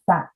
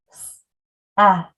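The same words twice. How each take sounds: First: Said in the usual way. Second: S, then ET with the sounds apart; sounds one by one. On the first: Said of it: "pulling the word back together". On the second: Shown as a demonstration. Teacher arm-tapping the second syllable, sound by sound. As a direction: isolate S, then E and T. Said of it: "By breaking apart".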